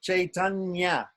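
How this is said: It has an 'ai' vowel and ends in 'nya'. "we'll say Sanskrit"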